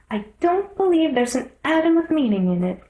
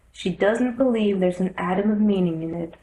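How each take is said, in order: First: Put-on higher, scornful girl; a little girl scoffing; young girl voice. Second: Said in the usual way. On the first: Alice scoffs.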